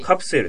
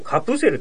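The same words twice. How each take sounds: First: The vowel after the p is dropped. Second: The vowel after the p is fully pronounced. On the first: The speaker calls it right. "カプセルって言うんですよ" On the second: The speaker calls it wrong. "これもカプセルとは言わないでしょ"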